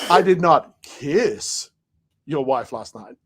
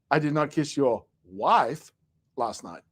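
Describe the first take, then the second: First: The stress falls on the word kiss. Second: The stress falls on the word wife.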